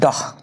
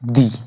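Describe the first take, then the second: First: The vowel is a short, neutral 'uh' sound. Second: The vowel is a long, high 'ee' sound. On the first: A consonant sound follows. "যদি consonant থাকে তার উচ্চারণ হবে দাহ" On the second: A vowel sound follows. "যদি vowel থাকে তার উচ্চারণ হবে দি"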